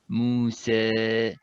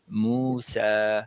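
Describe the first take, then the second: First: The final vowel is flat, with lips spread. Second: The final vowel is open and moderate. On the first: The speaker calls it wrong. "my mouth is more flat, it's flatter" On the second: The speaker calls it right. "it should be in the middle"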